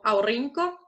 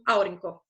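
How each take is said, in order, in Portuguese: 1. A tônica cai em uma sílaba posterior. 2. A tônica cai na primeira sílaba. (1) "não pode ser produzida como aurinko" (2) "é produzida como aurinko"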